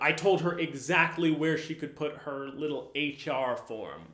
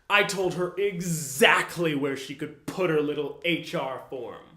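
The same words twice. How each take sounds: First: It is said in a plain, neutral tone. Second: It is said in an aggressive, rude tone. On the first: It doesn't seem to mean anything. "When you just read it by itself" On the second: The form was meant to go somewhere rude. "When you say this with that aggressive tone"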